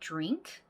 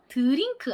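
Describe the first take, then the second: First: It starts with a blended j-like dr sound. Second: It starts with separate d and r, extra vowels. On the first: The speaker calls it right. "D랑 R이 합쳐지면 약간 지읒 같은 소리" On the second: The speaker calls it wrong. "드링크 안 됩니다"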